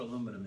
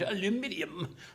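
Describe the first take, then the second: First: It is said in a plain American accent. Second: It is said in a put-on English accent.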